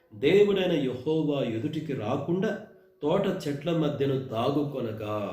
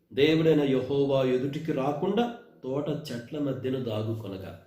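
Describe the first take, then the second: The two takes are said the same way.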